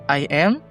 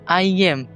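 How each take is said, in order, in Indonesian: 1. Kedua kata dipisah tanpa bunyi peluncur. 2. Bunyi peluncur seperti y menyambung kedua kata.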